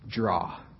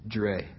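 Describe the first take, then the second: First: The vowel sounds like the one in 'saw'. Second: The vowel sounds like the one in 'day'. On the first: The speaker calls it wrong. "Most people say Draw" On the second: The speaker calls it right. "it's pronounced Dre"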